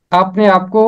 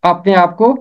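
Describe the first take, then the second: No difference in how they are said.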